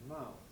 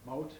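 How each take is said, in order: First: It is said in a standard RP accent. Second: It is said in a West Indian accent. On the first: "which is what I think of as the norm" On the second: "I think aha, West Indian"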